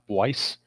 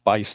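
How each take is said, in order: First: The name begins with a W sound. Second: The name begins with a B sound. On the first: The speaker calls it wrong. "not Weiss" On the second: The speaker calls it right. "it's pronounced Bice"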